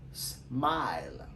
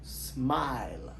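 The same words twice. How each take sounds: First: "Smile" repeated as smai-l; English smile. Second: "Smile" drawn out as smai-l; English smile. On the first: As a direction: say "Smile" again, drawn out. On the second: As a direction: model "Smile" slowly. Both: Shown as a demonstration. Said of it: "Comment nous prononcer".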